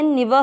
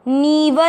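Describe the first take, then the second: First: The vowel is kept short. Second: The vowel is held long. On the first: The speaker calls it right. "निव है" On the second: The speaker calls it wrong. "नीव नहीं है"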